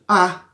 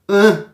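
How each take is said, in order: First: The vowel is pronounced open. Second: The vowel is pronounced closed. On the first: "E o A aberto?" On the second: "E o A fechado?"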